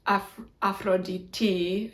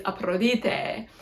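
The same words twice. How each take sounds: First: "Aphrodite" ending in TEE, slow and tentative; modern Greek pronunciation. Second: "Aphrodite" slowly, ending in a long TAY; ap-ro-DEE-tay for "Aphrodite"; ancient Greek pronunciation. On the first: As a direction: sound out "Aphrodite" slowly as af-ro-dee-TEE. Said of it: "in modern Greek". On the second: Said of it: "but then in ancient Greek". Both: Shown as a demonstration.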